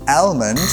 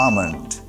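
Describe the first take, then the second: First: The l sound is sounded. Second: The l sound is silent. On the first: The speaker calls it wrong. "অ্যালমন্ড বলবেন না" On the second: The speaker calls it right. "এলটা হচ্ছে silent letter"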